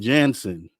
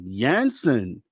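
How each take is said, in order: First: The name begins with a hard J sound. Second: The name begins with a soft J sound. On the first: The speaker calls it wrong. "I've been saying Jansen" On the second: The speaker calls it right. "it's a soft J"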